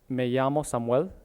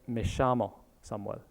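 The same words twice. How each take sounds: First: The ll is said like a y sound. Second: The ll is said like a sh sound.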